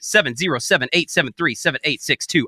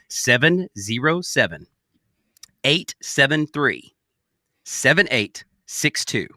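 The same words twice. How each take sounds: First: The digits are read at a normal pace. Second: The digits are read at a slower pace.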